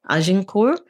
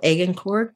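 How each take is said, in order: First: The name is pronounced the French way. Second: The name is pronounced the British way. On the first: "the French" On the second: "the British way"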